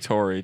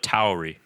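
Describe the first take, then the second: First: The first vowel sounds like 'core'. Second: The first vowel sounds like 'cow'. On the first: The speaker calls it wrong. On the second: The speaker calls it right. "the correct pronunciation is Alpha Tauri"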